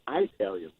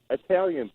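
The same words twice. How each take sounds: First: The first vowel is a strong 'eye' sound. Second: The first vowel is a short 'ih' sound. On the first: The speaker calls it wrong. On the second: The speaker calls it right.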